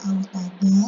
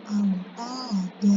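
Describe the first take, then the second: First: AUTADA said with an n on the end, "autadan"; tanwin reading, rejected. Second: AUTADA drawn out on an open final "a"; long-vowel stop reading. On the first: Teacher repeating the wrong stop, n sounded. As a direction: close "autada" on a short "an". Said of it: "dia tidak dibaca autada". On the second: Teacher repeating the correct stop, drawn-out vowels. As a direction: lengthen "autada" and leave off the n. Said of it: "tapi dibacanya autada". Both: Shown as a demonstration.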